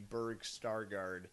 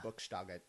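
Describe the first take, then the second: First: The name is said with an American accent. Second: The name is said with a German accent.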